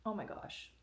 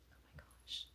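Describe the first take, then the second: First: Said in the usual way. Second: Hushed, unvoiced awe; breathless whisper. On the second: Real, not acted. Whispering in awe at the shirt she unboxed. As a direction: breathe it out, stunned.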